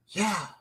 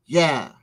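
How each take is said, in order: First: A soft, sagging yeah said much quieter; a parent's muted yes to the kid; quiet resigned yeah. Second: Said in the usual way. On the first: Retold or imitated. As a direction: let the yeah drop away to almost nothing. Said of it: "you're gonna say". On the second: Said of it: "you're gonna want it to be".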